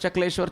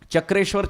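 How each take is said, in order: First: The second syllable begins with an L sound. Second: The second syllable begins with an R sound. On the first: This is the local form changed over time. "So now it becomes Chakleshwar" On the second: This is the original Sanskrit form. "Chakrasya Ishwaraha iti Chakreshwaraha"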